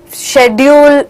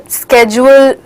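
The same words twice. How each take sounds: First: "schedule" pronounced shed-yool, the British way. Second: "schedule" said with a hard sk start, sked-jool; "schedule" pronounced sked-jool, the American way. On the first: Teacher to class, showing the British "schedule" with sh. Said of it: "Schedule is also correct". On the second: Teacher to class, showing the American "schedule" with sk. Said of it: "American English में schedule बोलते हैं". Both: Shown as a demonstration.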